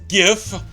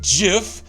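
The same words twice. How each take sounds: First: It begins with a hard G sound. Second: It begins with a soft J-like sound. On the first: The speaker calls it right. "it's GIF, not GIF... because it stands for graphical interface" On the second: The speaker calls it wrong. "not GIF"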